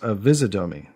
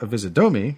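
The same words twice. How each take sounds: First: The stress falls on the syllable vis. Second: The stress falls on a syllable other than vis. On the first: The speaker calls it right. "the stress is on vis, so it is avisodomy" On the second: The speaker calls it wrong. "because it's not avisodomy"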